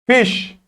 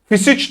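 First: The word ends in a single sh sound. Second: The ending is sounded as separate sounds. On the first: The speaker calls it right. "Ş sesi olur" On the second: The speaker calls it wrong. "Fisiç değil de"

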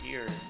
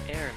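First: The word sounds like ear, with no h. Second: The word sounds like air, with no h. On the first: The speaker calls it wrong. "not ear" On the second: The speaker calls it right. "Actually, it's heir"

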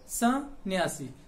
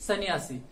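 First: The first syllable carries a nasal sound. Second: The first syllable has no nasal sound. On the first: The speaker calls it right. "तो ये सन्यासी नहीं बल्कि क्या होता है" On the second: The speaker calls it wrong. "इसका अगर आप उच्चारण करोगे बिना बिंदु के तो ये क्या हो जाएगा"

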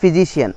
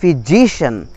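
First: The stress falls away from the 'si' syllable. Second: The stress falls on the 'si' syllable. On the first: The speaker calls it wrong. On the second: The speaker calls it right.

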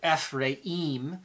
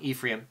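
First: The name is said with Hebrew pronunciation. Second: The name is said with English pronunciation. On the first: "Ephraim is how you would pronounce it in the Hebrew" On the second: "Most people, English, call him Ephraim"

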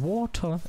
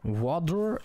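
First: It is said with a British accent. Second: It is said with an American accent. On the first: "Water ist britisch" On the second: "Water ist äh, amerikanisch"

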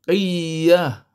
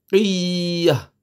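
The two takes are said the same way.

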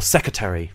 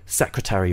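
First: The full ending is pronounced, but the middle R is dropped. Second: The full -ary ending is pronounced, with the R. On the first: "or secretary without even the R in the middle" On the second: "American people tend to say secretary"

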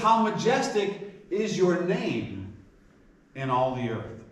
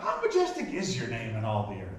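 First: It is said as an emphatic statement. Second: It is said as a questioning query.

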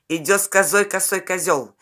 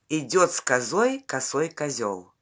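First: It is spoken at a faster pace. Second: It is spoken at a slower, steady pace.

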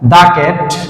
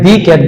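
First: The word 'the' is said as 'thuh'. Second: The word 'the' is said as 'thee'. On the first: The speaker calls it right. "এটা দা cat" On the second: The speaker calls it wrong. "তাহলে ভুল হবে উচ্চারণে"

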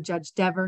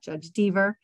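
First: The name rhymes with never. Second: The name does not rhyme with never. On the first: The speaker calls it right. "it rhymes with never" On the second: The speaker calls it wrong. "not Judge Deaver"

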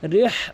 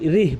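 First: The h sound is harsh from the throat. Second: The h sound is light and breathy. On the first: The speaker calls it right. "বড় হা রয়েছে" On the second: The speaker calls it wrong. "অধিকাংশ লোক কিন্তু রিহ লাতা বলে"

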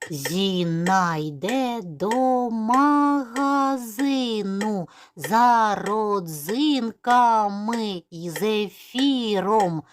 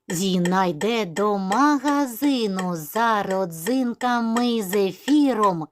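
First: It is spoken slowly, syllable by syllable. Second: It is spoken at a very quick pace. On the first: "Повторимо цей віршик повільно по складах" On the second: "І ще швидше"

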